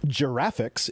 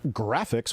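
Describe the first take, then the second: First: It begins with a soft J sound. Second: It begins with a hard G sound. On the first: The speaker calls it wrong. "it's not pronounced giraffics" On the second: The speaker calls it right. "with a hard G"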